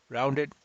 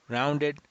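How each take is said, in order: The two takes are said the same way.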